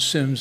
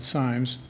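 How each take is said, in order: First: The vowel sounds short, as in 'sit'. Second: The vowel sounds long, as in 'time'. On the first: The speaker calls it right. "it's pronounced Sims" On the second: The speaker calls it wrong. "not Symes"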